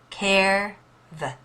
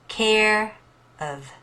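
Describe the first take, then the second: First: No vowel is heard before the V. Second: A short vowel is heard before the V.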